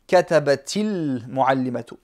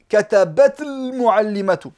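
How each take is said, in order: First: An 'i' vowel links katabat to the next word. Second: Katabat ends in a bare t before the next word. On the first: The speaker calls it right. "C'est juste une kasra de, de liaison" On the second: The speaker calls it wrong. "On va s'étouffer si on prononce ça comme ça"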